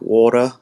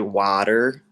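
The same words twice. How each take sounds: First: The word is said in an Australian accent. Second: The word is said in an American accent. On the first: "Australians are like water" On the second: "Americans say water"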